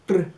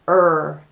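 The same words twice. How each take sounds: First: The R is a Spanish tap of the tongue. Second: The R is said the American English way. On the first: "La R española is R, made with the tongue on the top of the mouth" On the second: "la R americana, is R"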